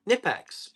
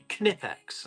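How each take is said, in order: First: The initial K is silent. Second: The initial K is pronounced. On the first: The speaker calls it wrong. "Most people say Knipex" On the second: The speaker calls it right. "it's actually Knipex, and they want you to pronounce the K"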